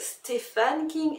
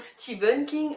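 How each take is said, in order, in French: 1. Le nom se prononce avec des sons français. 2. Le nom se prononce avec des sons anglais. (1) "prononcent à la française" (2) "et non"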